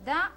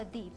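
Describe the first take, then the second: First: The word ends in an 'uh' sound. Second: The word ends in an 'ee' sound. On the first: The next word begins with a consonant. "pronunciamos da porque la siguiente palabra comienza con una consonante" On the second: The next word begins with a vowel. "di, cuando la siguiente palabra comienza con vocal"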